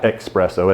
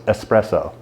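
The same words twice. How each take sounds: First: "espresso" said with an x, as "expresso"; wrong espresso pronunciation. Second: "espresso" with a plain s, as "ess-presso"; corrected espresso pronunciation. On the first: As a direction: put a k sound into "espresso": "ek-spresso". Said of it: "That's not espresso". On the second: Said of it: "it's espresso". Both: Shown as a demonstration.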